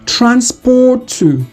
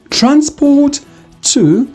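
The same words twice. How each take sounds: First: The t sounds merge into one long t. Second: The two t sounds are said separately.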